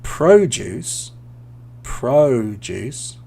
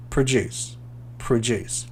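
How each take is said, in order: First: PRO-duce, long O and stress on PRO; noun produce. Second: Pro-DUCE, weak first syllable and stress on DUCE; verb produce. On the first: Teacher drilling the noun "produce" for learners, PRO-duce. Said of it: "the noun produce". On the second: Teacher drilling the verb "produce" for learners, pro-DUCE. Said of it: "Produce is a verb". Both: Shown as a demonstration.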